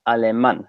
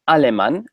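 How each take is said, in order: First: The stress is on the final syllable. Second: The stress is not on the final syllable. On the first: The speaker calls it right. "it's alemán. So the loudest part of the word is that is that A" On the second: The speaker calls it wrong. "it's not alemán"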